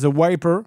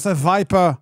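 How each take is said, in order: First: The name is said plainly, starting with W. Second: A strong accent makes the name start with V. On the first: "en anglais, il s'appelle The Wiper" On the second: "il le dit avec un, fort accent"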